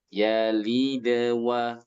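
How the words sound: The sound flows lightly into the next word. The speaker calls it right. "suaranya jangan putus"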